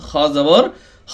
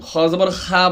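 First: The final vowel is a full, rounded 'o'-like sound. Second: The final vowel is a thin, open 'aa'. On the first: The speaker calls it right. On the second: The speaker calls it wrong. "খ জবর খা বলা যাবে না"

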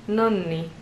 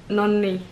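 The two takes are said the same way.

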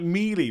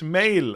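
First: The name ends with an added 'ee' vowel. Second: The name ends without an added 'ee' vowel. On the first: The speaker calls it wrong. "I've been saying, like, mealy" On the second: The speaker calls it right. "but it's mail, apparently"

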